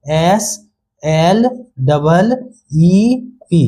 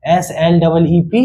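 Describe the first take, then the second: First: "S, L, double, E, P" letter by letter with pauses; spelled out slowly. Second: Said in the usual way. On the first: Shown as a demonstration. Teacher breaking down the word for children, spelled out slowly. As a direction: slowly separate each part of "S L double E P". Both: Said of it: "अब कैसे हुआ".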